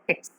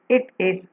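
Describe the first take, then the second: First: The two words are joined into one syllable. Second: Both words are said in full, separately. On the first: "when you are talking, we pronounce it as it's" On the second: "The simplest construct in colloquial English is it is"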